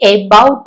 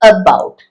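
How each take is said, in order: First: The first vowel is a full vowel sound. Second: The first vowel is a weak schwa sound. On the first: The speaker calls it wrong. "പക്ഷെ എബൌട്ട് അല്ല" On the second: The speaker calls it right. "ആ ശ്വ അവിടെ വരണം"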